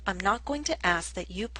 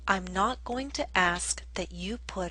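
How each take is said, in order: First: It is said at a faster pace. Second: It is said at a slower, steady pace.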